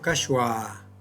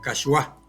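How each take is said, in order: First: The accented a is held long. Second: The accented syllable is made louder. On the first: This is the Quechua pronunciation. "en quechua hemos dicho kashwa con A larga" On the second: This is the Spanish-adapted pronunciation. "al castellanizar esta palabra decimos kashwa con el acento de intensidad"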